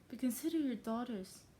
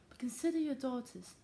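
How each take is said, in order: First: It is said in the speaker's own accent. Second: It is said in a put-on English accent.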